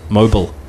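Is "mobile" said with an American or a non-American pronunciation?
American. It is said in an American pronunciation. This is how people in the US say it. "as they call it, mobile"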